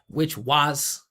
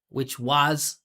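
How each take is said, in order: First: The word 'was' is full, loud and pitched. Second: The word 'was' is full, loud and pitched.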